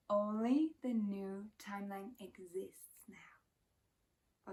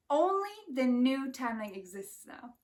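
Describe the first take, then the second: First: Slow, soft whisper. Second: Said in the usual way. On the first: Shown as a demonstration. Repeating the truth to viewers in a slow whisper. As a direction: breathe it slowly like a secret truth. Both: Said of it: "repeats line, then whispers it".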